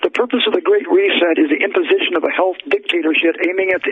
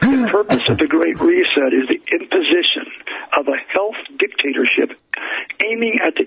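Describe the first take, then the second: First: It is read quickly. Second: It is read slowly.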